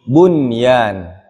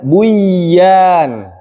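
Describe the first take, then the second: First: The n is clearly pronounced before the y. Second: The n merges into the following y sound. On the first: The speaker calls it right. "tapi bunyan" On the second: The speaker calls it wrong. "tidak dibaca buyan"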